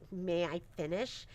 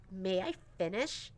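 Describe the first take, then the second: First: Imitating a sweet, polite girl, softer and lower. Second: Imitating a sassy teenager, softer and lower; sassy teen tone. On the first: Mom quoting daughter Violet asking nicely, sweet. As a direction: say it kindly and politely. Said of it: "it was so sweet that she was like". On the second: Mom imitating sassy teen daughter Violet, sassy. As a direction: put on a bit of teenage sass.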